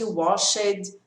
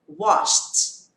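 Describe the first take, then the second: First: The ending adds an extra vowel before T. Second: The ending is just a T sound, no vowel. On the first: The speaker calls it wrong. "E nada de washed" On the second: The speaker calls it right. "só acrescento o som do T"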